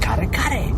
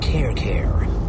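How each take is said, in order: First: Each half does not sound like English care. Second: Each half sounds like the English word care. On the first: The speaker calls it right. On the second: The speaker calls it wrong.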